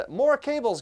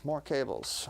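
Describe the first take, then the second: First: Amused, high and loud exclamation; laughing. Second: Said in the usual way. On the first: Real, not acted. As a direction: laugh it out in disbelief. Laughing at the cable pile.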